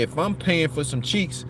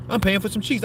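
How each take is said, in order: First: Said in the usual way. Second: Same words, much higher, insisting; pushed up high to drive the point home; higher insistent repeat; emphatic repeat, pitched higher. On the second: Shown as a demonstration.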